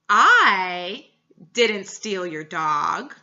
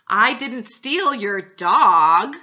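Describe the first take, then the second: First: The word "I" carries the stress. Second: The word "dog" carries the stress. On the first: Someone else did it. "I emphasized the I" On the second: Something else was taken. "but I may have stole your cat"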